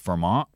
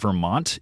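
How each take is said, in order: First: The t is replaced by a glottal stop. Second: The t is fully pronounced. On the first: "People here might call it dropping their T's" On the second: "So the state we live in is not Vermont"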